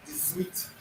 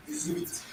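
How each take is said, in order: First: Dix-huit said as deez-weet; French pronunciation. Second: Dix-huit repeated softly and higher, deez-weet; soft repeated French pronunciation. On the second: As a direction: echo Dix-huit quietly. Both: Shown as a demonstration. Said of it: "So it is the result".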